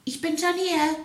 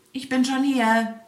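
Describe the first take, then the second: First: Much higher called-out "Ich bin schon hier"; wife calling out. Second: Louder, higher call of "Ich bin schon hier" with "bin" stressed; hedgehog calling out. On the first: The wife calls to the arriving hare: much higher call. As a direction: call across the field, high. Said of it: "rief ihm der Igel seine Frau entgegen". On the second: The hedgehog calls to the hare at the top: louder smug call. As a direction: shout it smugly across the field. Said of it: "rief ihm der Igel entgegen". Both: A narrator's reading.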